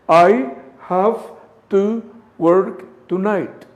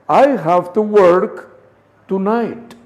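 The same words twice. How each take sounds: First: The words are said separately, without linking. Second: The words are linked together into one flow.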